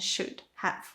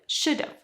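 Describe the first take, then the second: First: Have is said fully as a separate word. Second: Have is reduced and joined to should. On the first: "instead of" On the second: "it's easier if you shorten have"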